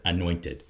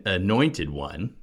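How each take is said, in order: First: Usual English weighting on "anointed"; stress on ANOINTED. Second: "one" lengthened and lifted in "anointed one"; slow down and land on the word "one"; stress on ONE. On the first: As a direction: let the emphasis fall on "anointed". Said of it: "we tend to emphasize that first word". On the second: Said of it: "we should emphasize the word one". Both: Shown as a demonstration.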